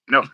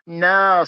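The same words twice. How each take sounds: First: The no sounds flat and firm. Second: The no sounds teasing and playful.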